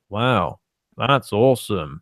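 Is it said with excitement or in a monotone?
monotone. It is said in a flat monotone.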